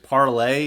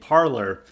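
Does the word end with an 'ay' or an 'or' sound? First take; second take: ay; or. First: The word ends with an 'ay' sound. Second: The word ends with an 'or' sound. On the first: It is said the French way. The speaker calls it right. "Parler's proper pronunciation is parlay" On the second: It is said the English way. The speaker calls it wrong. "their entire user base is saying parlor"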